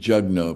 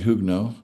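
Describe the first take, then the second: First: The name is given an English pronunciation. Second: The name is given a non-English pronunciation. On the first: This is how an English reader would say it. "you might pronounce that Jugno if you're reading it in the English form" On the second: This is how she herself says her name. "she goes by here Nancy Hugno"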